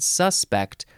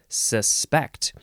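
First: The stress is on the first syllable. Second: The stress is on the second syllable. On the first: It is used as a noun. "if you emphasize the first syllable and you said suspect, that would be more of a noun" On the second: It is used as a verb. "where you emphasize the second syllable because that's more of a verb"

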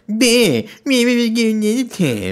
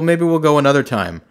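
First: It is said in a whiny, mocking voice. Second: It is said in a plain, normal voice.

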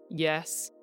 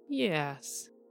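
First: The word is said on a low pitch. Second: The word is said with falling pitch. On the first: "a low" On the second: "and a falling"

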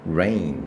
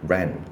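First: The vowel glides from one sound into another. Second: The vowel is one short, unchanging sound. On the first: The speaker calls it right. "那下雨应该怎么念？ Listen。" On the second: The speaker calls it wrong. "很多人都会念成rain"

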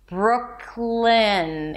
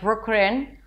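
First: The consonant after the K is a clear L. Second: The consonant after the K sounds like R. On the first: The speaker calls it right. "the tip of the tongue has to touch the upper palate" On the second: The speaker calls it wrong. "If you tend to confuse the L with the R and then it sounds something like"

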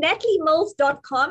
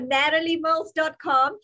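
First: It is said in a non-American accent. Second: It is said in an American accent.

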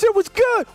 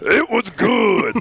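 First: It is said high-pitched and excited. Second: It is said low-pitched and composed.

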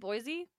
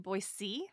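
First: The middle consonant is a buzzing Z sound. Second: The middle consonant is a hissing S sound. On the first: The speaker is not actually from there. The speaker calls it wrong. "with like the Z sound" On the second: The speaker is a local. The speaker calls it right. "It's actually supposed to be Boise"

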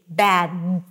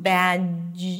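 First: The final d is a clean, fully blocked stop. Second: The final d ends with an extra hissing sound. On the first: The speaker calls it right. "you want to bring the tip of the tongue up and to block the air completely" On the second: The speaker calls it wrong. "When you pull the tongue back a bit and you leave very little room"

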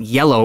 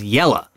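First: The word ends in a full 'oh' sound. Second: The word ends in a reduced 'uh' sound. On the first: "cowboy wasn't yellow" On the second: "it was yella"

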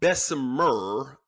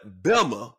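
First: It is pronounced the way it is spelled. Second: It is pronounced the way local residents say it. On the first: This is how outsiders read the name. "It is spelled B-E-S-S-E-M-E-R" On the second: This is how people from the town say it. "but Bessemer down there"

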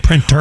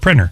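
First: The middle T is clearly pronounced. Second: The middle T is dropped, sounding like prinner. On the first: "it's not a P-R-I-N-N-E-R. It's a printer" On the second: "why do you pronounce the T? It's just a printer"

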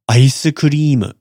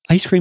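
First: It is said with Japanese katakana pronunciation. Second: It is said with English pronunciation. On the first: The speaker calls it right. "Maybe more like" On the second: The speaker calls it wrong. "Ice cream is not"

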